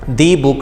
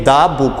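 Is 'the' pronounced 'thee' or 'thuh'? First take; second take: thee; thuh. First: The article is said with a long 'thee' vowel. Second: The article is said with a short 'thuh' vowel. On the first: The speaker calls it wrong. "दी book नहीं होता" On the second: The speaker calls it right. "दा book होता है"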